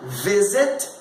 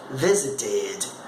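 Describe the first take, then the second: First: Said in the usual way. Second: Slow "visited", final id drawn out; lower, stretch the last syllable of "visited"; prolonged ED ending. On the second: Shown as a demonstration. Teacher showing how she adds a syllable, prolonged ending. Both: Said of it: "Veja como eu prolongo um pouquinho".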